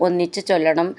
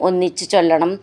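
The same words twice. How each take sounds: The two takes are said the same way.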